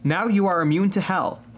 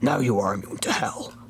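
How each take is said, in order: First: It is said in the speaker's normal voice. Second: It is said in a put-on character voice.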